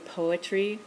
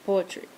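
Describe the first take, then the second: First: The vowel in the word is drawn out. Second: The vowel in the word is kept short. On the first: This is the speaker's own accent. "and I'd say poetry" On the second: This is how the students say it. "and I'd try to copy it, or poetry"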